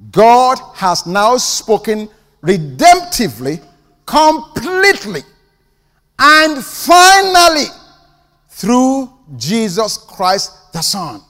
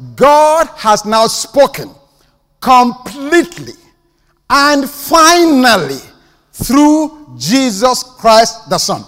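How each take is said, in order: First: It is said slowly and deliberately. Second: It is said at a normal pace.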